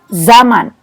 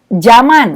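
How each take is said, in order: First: The word begins with a Z sound. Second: The word begins with a J sound. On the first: The speaker calls it right. "harusnya zaman, menyebutkan uh, menggunakan Z" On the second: The speaker calls it wrong. "Kita juga sering menyebut zaman, menggunakan J"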